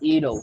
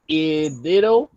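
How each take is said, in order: First: The word ends without an added vowel. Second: The word ends with an added vowel sound. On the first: The speaker calls it right. "is pronounced it'll, like that" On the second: The speaker calls it wrong. "you said idito"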